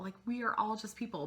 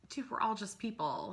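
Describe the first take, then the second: First: "are" spelled out and stressed, quicker; fast, punched "are". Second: All leaned on in "dude, we're all just people"; stress on all. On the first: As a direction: hit "are" in "we are all just people". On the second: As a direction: land the weight on "all", falling. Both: Shown as a demonstration.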